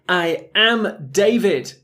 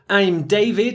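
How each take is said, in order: First: I and am are said as two separate words. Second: I and am are joined into one syllable. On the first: "it's basically I, the verb to be" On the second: "we make the contraction into I'm"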